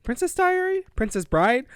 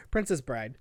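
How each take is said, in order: First: "Princess Diary? Princess Bride?" said as unsure questions, lifting on the title; questioning. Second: "Princess Bride" dropped low and softer as a statement; settled correction. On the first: Co-host unsure of the film's name, questioning. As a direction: check each title with a doubtful lift. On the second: Co-host landing on the right film title, settled. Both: Real, not acted.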